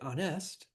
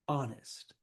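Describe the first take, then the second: First: The stress is on the second syllable. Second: The stress is on the first syllable. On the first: The speaker calls it wrong. "We don't say honest" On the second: The speaker calls it right. "the stress is on the first syllable. Like these"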